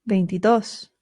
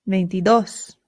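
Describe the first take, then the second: No difference in how they are said.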